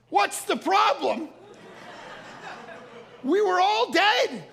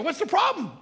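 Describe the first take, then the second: First: High, slow, incredulous echo; mock outrage, every word stretched out; exasperated outburst. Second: High, quick, puzzled retort; acted innocent bafflement; puzzled question. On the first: Husband answers oblivious wife after missile scare, exasperated. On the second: Unaware wife asks her worried husband, baffled.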